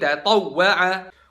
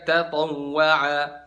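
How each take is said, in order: First: The doubled w gets a short, sharp jolt. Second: The doubled w is said flat, without jolt. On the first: The speaker calls it right. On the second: The speaker calls it wrong.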